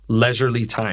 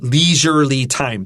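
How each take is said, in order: First: The first vowel is a short e sound. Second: The first vowel is a long ee sound. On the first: The speaker calls it right. "It's leisurely time" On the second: The speaker calls it wrong. "That's wrong"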